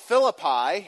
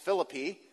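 First: It is said in the general, non-local way. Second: It is said in the local West Virginia way.

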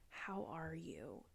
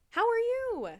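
First: It is said in a soft, pitying tone. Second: It is said in a light, everyday tone. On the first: The asker feels sorry for the grieving person. "It sounded like this" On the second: An ordinary greeting. "it was a long time before somebody asked it like this"

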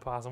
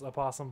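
First: The word begins directly with a p sound. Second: The word begins with an extra vowel sound. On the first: This is the form everyone actually uses. The speaker calls it right. "it's clearly possum. We're all saying possum. Let's just drop that O" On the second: This is the technically correct form. The speaker calls it wrong. "technically it's supposed to be pronounced opossum"

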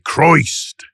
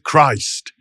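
First: It is said in a Gloucestershire regional accent. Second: It is said in the speaker's ordinary accent.

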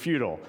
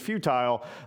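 First: It is said with an American pronunciation. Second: It is said with a British pronunciation. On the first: "The American is futile" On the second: "the British pronunciation is futile"

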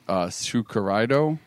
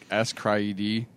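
First: The name is said as five syllables. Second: The name is said as three separate syllables. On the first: "According to Google, it's Tsukuraido" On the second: "I was like, S-Cry-ED"

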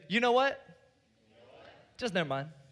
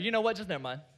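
First: The words are said separately, at normal pace. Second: The words run together like one word.

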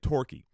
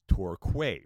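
First: The name is said as local people say it. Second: The name is said as an American would guess. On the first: The speaker calls it right. "No, they say it Torquay" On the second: The speaker calls it wrong. "a citizen of the United States of America, how would you pronounce that?"

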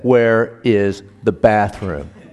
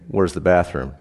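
First: It is said louder and more slowly. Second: It is said at normal speed and loudness.

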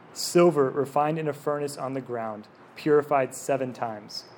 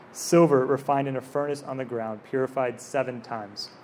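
Both takes have the same delivery.

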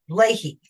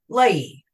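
First: The name is said with an H sound. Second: The name is said without an H sound. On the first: The speaker calls it right. "You got to pronounce that H" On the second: The speaker calls it wrong. "he was not pronouncing the H. He was pronouncing his name Leahy"

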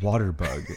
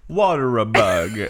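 First: The two words join with no extra vowel. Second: An extra vowel is inserted between the two words. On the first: "next time I do the word, I'm just going to be like" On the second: "And she's going to be like"

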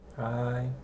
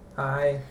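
First: It is said with little enthusiasm. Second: It is said with the most enthusiasm.

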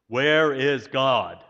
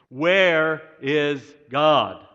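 First: It is said sternly at moderate volume. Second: It is said most sternly and loudest.

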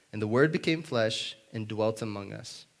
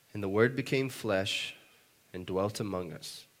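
No difference in how they are said.

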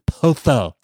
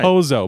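First: The middle consonant is a soft th sound. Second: The middle consonant is a buzzing z sound. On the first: The speaker calls it right. "Z's that's pronounced like T-H's" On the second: The speaker calls it wrong. "Like rhymes with Bozo the Clown"

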